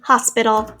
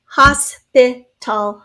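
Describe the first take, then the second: First: Said in the usual way. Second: Hospital very slowly, as HOS, PI, TAL; slow syllable-by-syllable demo. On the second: Shown as a demonstration. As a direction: say Hospital in three separate beats. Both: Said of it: "Three syllables there".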